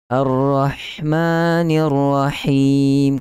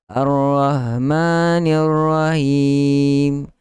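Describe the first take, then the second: First: The breathy h sound is clear and strong. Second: The breathy h sound is weak and faint. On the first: The speaker calls it right. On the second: The speaker calls it wrong.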